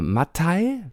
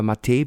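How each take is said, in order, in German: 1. Der Name wird auf deutsche Art ausgesprochen. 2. Der Name wird auf schwedische Art ausgesprochen.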